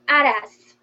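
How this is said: It is said with a Brazilian accent.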